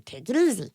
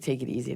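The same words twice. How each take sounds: First: Put-on voice for talking to a dog; higher, playful voice for the dog; pet-talk voice. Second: Said in the usual way. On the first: Owner telling Tofu the dog, in a put-on pet voice.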